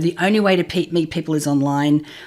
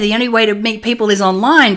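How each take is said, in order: First: It is said in a dismayed, fearful tone. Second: It is said in an enthusiastic, upbeat tone. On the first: Meeting people online feels frightening. "oh my god, ... that's too scary" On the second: Meeting people online is a great opportunity. "yeah, ... Fantastic"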